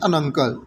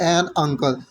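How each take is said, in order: First: The word 'an' is reduced and joined on. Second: The word 'an' has a full, separate vowel. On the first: The speaker calls it right. "That is अन uncle" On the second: The speaker calls it wrong. "That is not एन uncle"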